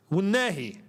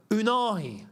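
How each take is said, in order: First: "Wunehi" as woo-NEH-hee, short EH; corrected pronunciation. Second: "Unahi" as oo-NAH-hee, long AH, pitched up; anglicised mispronunciation. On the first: Streamer teaching how you say these names, native-style "Wunehi", woo-NEH-hee. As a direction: begin "Wunehi" on a W, then NEH. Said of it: "that's how you say these names". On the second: Streamer showing how English butcher African names, anglicised "Unahi". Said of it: "the English butcher these names". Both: Shown as a demonstration.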